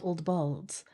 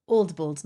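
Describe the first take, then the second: First: "balds" said with an aw vowel, as in "bald"; BALDS with open vowel. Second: Put-on "bolds" said with a long o, as in "old". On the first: Streamer showing the wrong word, "balds" with aw vowel. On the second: Streamer correcting chat on the word, "bolds" with long o. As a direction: give "bolds" the vowel of "old". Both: Shown as a demonstration. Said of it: "not old balds".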